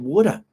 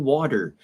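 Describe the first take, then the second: First: It is said in an Australian accent. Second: It is said in an American accent. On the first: "if you go to Australia and New Zealand... they would say water" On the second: "My English is very American, and I say water"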